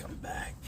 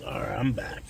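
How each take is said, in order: First: "I'm back" whispered unvoiced; whispering. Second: Said in the usual way. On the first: Real, not acted. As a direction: breathe "I'm back" softly.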